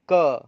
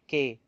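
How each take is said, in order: First: It is said as a short stopped consonant. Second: It is said as the letter name kay. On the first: The speaker calls it right. "It's K sound" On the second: The speaker calls it wrong. "It's not K"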